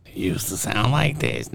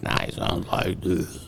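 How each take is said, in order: First: Put-on old voice of a rapper. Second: Whispered, lower, slow rapper voice worn out from smoking; the rapper's ruined voice. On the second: Retold or imitated. Mocking the rapper's smoked-out voice to friends, whispered and slow. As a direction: rasp it out like his voice is shot.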